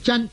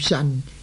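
First: It starts with a dz sound, ending in n. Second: It starts with an s sound, ending in n. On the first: "有人呢读做真" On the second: "有人读做神"

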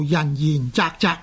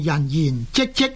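First: The last two syllables sound like 责. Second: The last two syllables sound like 即. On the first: "正確的读音呢，是应该读做人言责责，即是责任的责字同音" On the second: "亦可以读做人言即即"

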